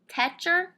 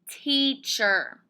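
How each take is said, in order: First: The first vowel is a short e sound. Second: The first vowel is a long e sound. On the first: The speaker calls it wrong. "Let's start with the short e sound. That doesn't sound right" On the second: The speaker calls it right. "How about long e? That sounds right"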